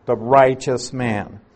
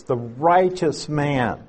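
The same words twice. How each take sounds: First: A lighter push on "righteous", normal pace; stress on righteous. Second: Slow, leaning hard on "righteous"; stress on righteous. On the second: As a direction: draw out "righteous" and hit it firmly. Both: Shown as a demonstration. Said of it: "the emphasis there is on the word righteous".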